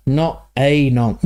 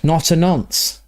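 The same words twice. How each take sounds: First: "a" said as a full, drawn-out "ay"; slow it right down, leaning on "a" as "ay"; stress on A. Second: Said in the usual way. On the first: Real, not acted. Slow emphatic repeat.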